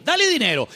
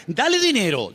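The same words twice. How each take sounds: First: "dale dinero" repeated much higher, stress on "dale"; emphatic repeat. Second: Said in the usual way. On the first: Shown as a demonstration. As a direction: punch "dale" up high the second time. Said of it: "dale dinero (primera toma)". ("dale" mucho más agudo y enfático) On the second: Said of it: "dale dinero (repetida)".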